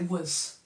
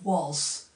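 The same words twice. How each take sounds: First: The vowel is shortened and weak. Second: The vowel is full and clearly pronounced. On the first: "shorten vowel sounds" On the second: "instead of saying was"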